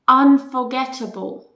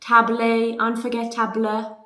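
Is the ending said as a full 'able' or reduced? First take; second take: reduced; full. First: The ending is reduced to a short weak syllable. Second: The ending is said as a strong full able. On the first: The speaker calls it right. "ball, like football" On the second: The speaker calls it wrong. "Do not, do not say unforgettable ... It's strong, able"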